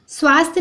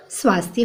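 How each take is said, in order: First: "स्वास्थ्य" as swaast, no y; wrong pronunciation. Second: "स्वास्थ्य" as swaasth-ya; softer "स्वास्थ्य" with ya ending; correct pronunciation. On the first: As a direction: drop the final y in "स्वास्थ्य". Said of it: "नहीं होता बच्चों". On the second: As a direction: sound the final y in "स्वास्थ्य". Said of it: "स्वास्थ्य होता है". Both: Shown as a demonstration.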